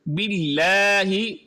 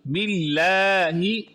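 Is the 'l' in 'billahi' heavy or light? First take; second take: light; light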